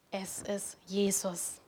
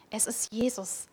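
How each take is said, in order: First: Langsam und fast geflüstert; hauchend, ganz langsam: es ist Jesus; leise bekennend. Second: Said in the usual way. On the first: Real, not acted. Kernaussage der Predigt, leise bekannt. (leise, langsam, ehrfürchtig geflüstert)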